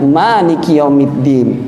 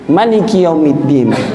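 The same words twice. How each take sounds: First: The first vowel of Maliki is held long. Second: The first vowel of Maliki is kept short. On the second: "membacanya dengan memendekkannya"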